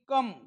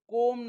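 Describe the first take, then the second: First: The vowel is a short 'uh' sound. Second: The vowel is a long 'oh' sound. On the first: The speaker calls it right. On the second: The speaker calls it wrong. "कोम नाही"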